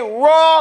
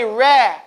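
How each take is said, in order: First: The R syllable is heavy, like in rock. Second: The R syllable is thin, like in rat. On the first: The speaker calls it right. "You say raw like rock" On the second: The speaker calls it wrong. "You don't say ra like rat"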